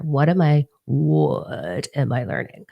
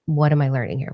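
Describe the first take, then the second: First: Slow, stretched-out "what" in "what am I learning"; exasperated self-questioning, "what" dragged out slowly; drawn-out emphasis. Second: Said in the usual way. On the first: Retold or imitated. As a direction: lean long and heavy on "what", as if asking yourself.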